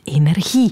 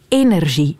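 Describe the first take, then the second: First: The g is a guttural throat sound. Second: The g is a soft 'zh' sound. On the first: The speaker calls it wrong. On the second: The speaker calls it right.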